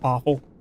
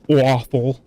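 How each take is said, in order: First: The first vowel has a plain, neutral sound. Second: The first vowel has a New Jersey sound. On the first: The speaker calls it right. "instead of just like awful" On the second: The speaker calls it wrong. "You do say awful"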